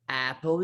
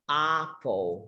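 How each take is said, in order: First: The first vowel does not sound like 'ah'. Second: The first vowel sounds like an open 'ah'. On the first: The speaker calls it wrong. "apple is wrong" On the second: The speaker calls it right. "The only right way to say that is apple, apple, like uh, with this ah ah"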